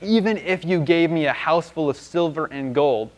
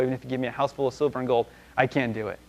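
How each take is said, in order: First: Slow, drawn-out hint with weight on "Even"; pointed hinting. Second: Offhand, understated hinting; nudging hint. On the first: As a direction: stretch it out as a broad hint. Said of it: "kinda like a hint, hint". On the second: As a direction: hurry through it softly, like an elbow nudge. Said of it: "give him a little elbow". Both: Acted.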